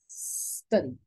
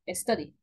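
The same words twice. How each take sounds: First: The word starts directly with a hissing s. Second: The word starts with a short vowel before s. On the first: The speaker calls it right. "la palabra es study" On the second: The speaker calls it wrong. "no es study"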